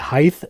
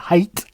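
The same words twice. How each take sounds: First: The word ends with a 'th' sound. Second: The word ends with a 't' sound.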